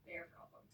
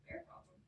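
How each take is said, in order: First: Flat dismissive repeat. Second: Incredulous repeat. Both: Retold or imitated. Trout repeats the phrase.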